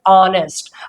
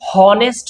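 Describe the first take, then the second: First: The word starts directly with a vowel sound. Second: The word starts with an audible h sound. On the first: The speaker calls it right. "ये होता है ऑनेस्ट" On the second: The speaker calls it wrong. "इसे हम हॉनेस्ट नहीं बोलते हैं"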